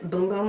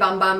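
First: The vowel is long, as in 'boom'. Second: The vowel is short, as in 'bum'. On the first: The speaker calls it right. "but it's boom boom, I think" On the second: The speaker calls it wrong. "I used to say bum bum"

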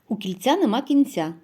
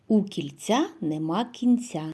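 First: The phrase is spoken at a quicker pace. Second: The phrase is spoken at a slower pace.

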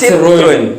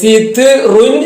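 First: The word is said smoothly with syllables joined. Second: The word is split with a break between syllables. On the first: The speaker calls it right. "കൂട്ടി വായിക്കുമ്പോൾ" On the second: The speaker calls it wrong. "സിത് റുൻ എന്നല്ല"

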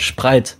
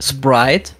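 First: It is pronounced hard, in a German way. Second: It is pronounced softly, in an English way.

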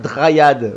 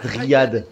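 First: The name is said with an American accent. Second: The name is said with a French accent. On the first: "j'ai envie de dire Dryad ... ça fait American" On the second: "au lieu de dire Dryad"

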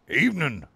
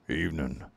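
First: It is said in a plain, ungruff voice. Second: It is said in a rough, gruff voice.

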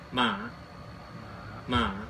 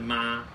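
First: The pitch dips down then rises. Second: The pitch stays high and level. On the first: "长得很像问号的，它就念" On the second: "没有写的是妈，就跟一声一样"

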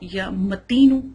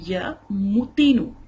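First: The m is not followed by a u vowel. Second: The m is followed by a u vowel. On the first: "لفظ ہے یا متینو" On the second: "پڑھا جائے گا یا متینو, میم پیش ہوگی"

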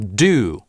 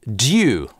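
First: American accent, with no y glide after the consonant. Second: British accent, with a y glide after the consonant. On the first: "Американцы произносят эти слова как" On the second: "в классическом ар пи говорят"

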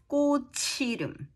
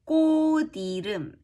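First: The final consonant carries over as a ch sound. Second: The final consonant of the first syllable sounds like d. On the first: The speaker calls it wrong. "instead of" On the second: The speaker calls it right. "Chit is pronounced d"

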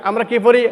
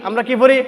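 The two takes are said the same way.

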